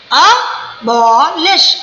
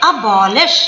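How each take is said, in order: First: Abolish very slow, a... bo... lish; three separate stresses. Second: Said in the usual way. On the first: Shown as a demonstration. Teacher showing the jaw drop thrice, abolish split slowly. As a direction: cut abolish into three beats with gaps. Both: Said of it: "तीन बार देखो jaw line गिरती है".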